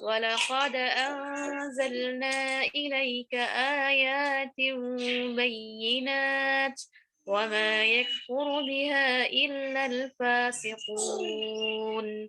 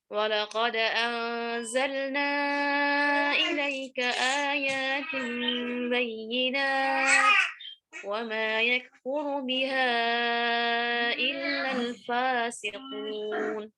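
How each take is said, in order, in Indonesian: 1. Huruf mad dibaca pendek. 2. Huruf mad dibaca sedang. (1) "anzalnanya yang pertama qasar, kemudian ayatin lewat badalnya qasar" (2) "wajah kedua بالتوسط"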